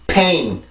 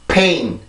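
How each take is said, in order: No difference in how they are said.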